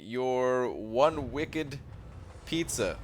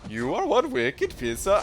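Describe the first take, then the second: First: It is said in the speaker's normal accent. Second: It is said in an attempted Boston accent.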